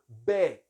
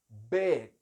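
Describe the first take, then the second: Both takes have the same delivery.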